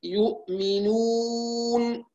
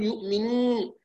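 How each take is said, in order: First: Slow يؤمنون with a clear oral waw; نطق صحيح للواو; clean waw. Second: يؤمنون with the waw pulled into the nose; نطق خاطئ للواو; nasal waw mistake. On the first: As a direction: keep the waw of يؤمنون out of the nose, drawn out. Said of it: "تصفية الواو من الخيشوم". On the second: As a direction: let the waw of يؤمنون pass through the nasal, wrongly. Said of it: "لا نقول". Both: Shown as a demonstration.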